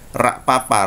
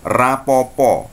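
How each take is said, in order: First: The repeated syllables are said with an a vowel. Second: The repeated syllables are said with an o vowel. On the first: This is how people from the Banyumas region say it. "Karesidenan Banyumas, mereka akan mengatakan rapapa. O-nya berubah menjadi a" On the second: This is how people around Solo, Semarang and Jogja say it. "daerah Solo, daerah uh, Semarang ya, Jogja akan mengatakan seperti itu"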